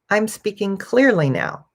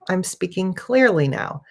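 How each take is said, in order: First: Words are contracted and run together smoothly. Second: Words are contracted and run together smoothly.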